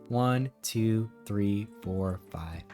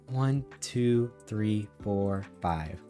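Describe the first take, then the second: The two takes are said the same way.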